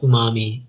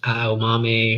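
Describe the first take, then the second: First: The name is said as oo-mah-mee. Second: The name is said as ah-oh-mah-meh. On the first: The speaker calls it wrong. "I'm gonna pronounce it as umami" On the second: The speaker calls it right. "it's aomame or something like that"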